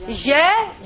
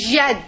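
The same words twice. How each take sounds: First: "Jad" split into ja and de; sounded out. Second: Said in the usual way. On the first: Shown as a demonstration. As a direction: stretch the first part of "Jad", then release the d separately. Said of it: "this is the letter jim with a fatha". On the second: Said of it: "The next one is".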